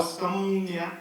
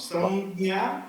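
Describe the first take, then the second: First: Samnya drawn out, m gliding straight into nya; samnya without the cluster. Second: Samjna drawn out, with a hard g-like sound before nya; samjna with the cluster. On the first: Student offering the other pronunciation, slow samnya without cluster. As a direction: stretch "samnya" slowly with no hard consonant. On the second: Student asking which pronunciation is right, slow samjna with cluster. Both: Shown as a demonstration. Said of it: "First one is correct".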